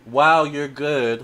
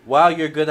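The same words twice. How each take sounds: First: Amazed. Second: Louder, quicker amazed Wow. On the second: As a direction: snap out a delighted Wow, you're good. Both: Real, not acted.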